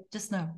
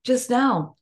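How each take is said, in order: First: Soft just no. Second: Louder, punchy repeat; a firm, amused just no; firm echo. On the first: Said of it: "but it's like". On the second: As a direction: echo her line with conviction. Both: Shown as a demonstration.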